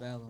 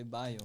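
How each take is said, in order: First: The double L is said as an L sound. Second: The double L is said as a Y sound.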